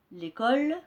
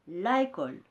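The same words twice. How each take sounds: First: L'école with the vowel dropped, said clearly; correct elision. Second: La école with both vowels kept, a deliberate mistake; wrong form, no elision. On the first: Teacher modelling l'école for pupils, clear. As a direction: model the right form l'école. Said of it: "On va dire". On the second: Teacher showing pupils the wrong la école. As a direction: show the error la école. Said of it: "on ne va pas dire la école". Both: Shown as a demonstration.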